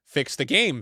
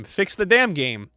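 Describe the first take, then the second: First: Said in the usual way. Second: Damn drawn out and louder; slow down and lean hard on damn; stress on damn. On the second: Retold or imitated. Streamer reads a fan's repeated demand, damn hit hard.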